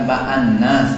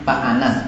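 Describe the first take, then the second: First: The n sound is doubled and held. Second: The n sound is short and single. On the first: It means mankind, as in the surah. The speaker calls it wrong. "bukan Pak Anas" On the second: It is a person's name. The speaker calls it right. "Pak Anas itu namanya Pak Anas"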